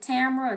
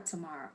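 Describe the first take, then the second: First: Tamara said TAM-ruh; stress on first syllable. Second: Tamara said tuh-MAR-uh; stress on second syllable. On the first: Speaker checking a colleague's name, Tamara as TAM-ruh. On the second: Speaker offering the other name option, Tamara as tuh-MAR-uh. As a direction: stress the middle of Tamara, with an open AH. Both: Shown as a demonstration. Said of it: "is it Tamara or Tamara".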